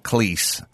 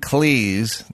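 First: The name does not rhyme with cheese. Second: The name rhymes with cheese. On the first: The speaker calls it wrong. "not Cleese" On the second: The speaker calls it right. "Cleese, like cheese"

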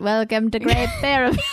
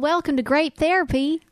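First: It is spoken in an attempted Australian accent. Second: It is spoken in a Southern American accent. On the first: The speaker calls it wrong. "I'm like a robot" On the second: The speaker calls it right. "The only accent I can do is a Southern accent"

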